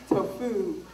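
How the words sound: The word is said in a mocking, unappetizing way. "if someone wants to make tofu not sound good, they say tofu"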